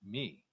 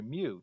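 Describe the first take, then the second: First: The vowel sounds like ee. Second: The vowel sounds like oo. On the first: The speaker calls it right. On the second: The speaker calls it wrong.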